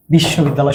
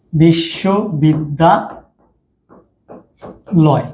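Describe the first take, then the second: First: Said in the usual way. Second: বিশ্ববিদ্যালয় very slowly, broken into chunks with long pauses; syllables drawn apart. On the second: Shown as a demonstration. Teacher showing students how to count syllables, drawn-out chunks. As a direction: stretch বিশ্ববিদ্যালয় out, one breath-group at a time. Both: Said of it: "যতক্ষণ তুমি টেনে নিয়ে যেতে পারো এক নিঃশ্বাসে".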